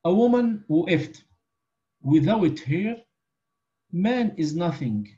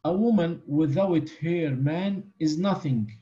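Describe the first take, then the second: First: There is a pause after woman. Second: It is said without a pause after woman.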